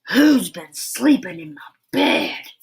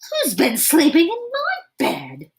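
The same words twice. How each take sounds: First: It is roared in a great big voice. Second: It is shouted in a medium-sized voice.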